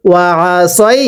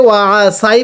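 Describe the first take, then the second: First: ওয়া আ সই with the vowel said as সই, the correct way; correct reading. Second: ওয়া আ সাই with the vowel said as সাই, the incorrect way; wrong reading. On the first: Teacher shows students the correct reading, right pronunciation. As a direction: say সই with the rounded short 'oi'. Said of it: "পড়ুন". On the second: Teacher shows students the incorrect reading, wrong pronunciation. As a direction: say সাই with an open 'ai' as the mistake to avoid. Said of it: "পড়লে পড়া শুদ্ধ হবে না". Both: Shown as a demonstration.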